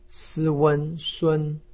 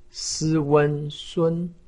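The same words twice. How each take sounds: First: The pitch stays high and level. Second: The same.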